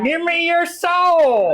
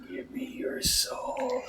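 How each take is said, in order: First: Very high, slow cartoon villain shout; Skeletor voice. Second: High breathy whispered threat; menacing whisper. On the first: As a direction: shriek it like Skeletor with a twang. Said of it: "that was Skeletor with a weird southern accent". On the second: Acted. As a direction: whisper it slowly like a ghoul. Menacing line to foe.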